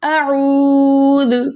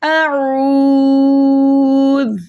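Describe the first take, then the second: First: The final consonant is released with a bouncing echo. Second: The final consonant is held still without bouncing. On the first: The speaker calls it wrong. "ऐसे भी नहीं कर देना, ये हुर्फ़े क़लक़ला वैसे नहीं है" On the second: The speaker calls it right. "इसको इसके मखरज में रोक के पढ़ना है"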